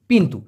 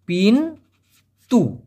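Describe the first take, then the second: First: Said in the usual way. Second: পিন then তু, split into two separate syllables with a pause; পিন and তু broken apart for learners. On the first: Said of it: "এই জন্য পিন্তু হবে". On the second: Shown as a demonstration. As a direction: spell out পিন তু one beat at a time. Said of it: "দরজাকে Malaysian ভাষায় বলা হয় পিন্তু".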